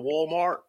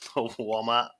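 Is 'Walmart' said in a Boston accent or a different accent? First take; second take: different; Boston. First: It is said in a non-Boston accent. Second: It is said in a Boston accent. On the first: "he usually says it like" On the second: "talking in a Boston accent"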